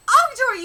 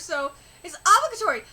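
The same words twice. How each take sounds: First: Obligatory pushed higher and louder; stress on Obligatory. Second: Said in the usual way. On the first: Acted. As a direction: hammer home the word Obligatory. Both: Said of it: "emphasize so much on obligatory".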